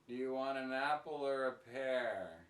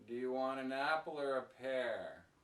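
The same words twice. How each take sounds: No difference in how they are said.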